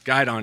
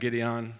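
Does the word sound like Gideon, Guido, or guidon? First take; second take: guidon; Gideon. First: It is pronounced like 'guide-on'. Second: It is pronounced like 'Gideon'. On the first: The speaker calls it right. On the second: The speaker calls it wrong.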